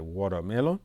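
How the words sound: It is said with an American accent. "c'est la prononciation américaine"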